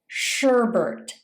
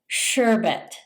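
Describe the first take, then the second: First: The word has an extra R sound. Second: The word has only one R sound. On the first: The speaker calls it wrong. "by adding an extra R sound" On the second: The speaker calls it right. "It's actually sherbet"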